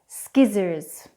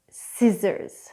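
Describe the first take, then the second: First: The c is pronounced as a k sound. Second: The c is silent with no k sound. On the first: The speaker calls it wrong. "the incorrect pronunciation first" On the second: The speaker calls it right. "then I'll do the correct pronunciation"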